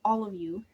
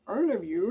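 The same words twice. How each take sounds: First: Said in the usual way. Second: Mock London accent, louder; playful attempt at a London accent. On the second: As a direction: put on an exaggerated London accent. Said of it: "Trying to do London accents".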